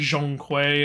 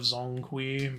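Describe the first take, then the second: First: The name is said closer to Chinese. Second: The name is said in a simplified, anglicized way. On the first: This is the technically correct form. "it's technically Zhongkui" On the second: This is the casual, easier form.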